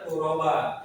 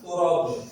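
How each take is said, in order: First: The word ends on a long a vowel. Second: The word ends on an echoing b sound. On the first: The speaker calls it right. "Harusnya turoba" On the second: The speaker calls it wrong. "malah di uh, kol-kolakan turob"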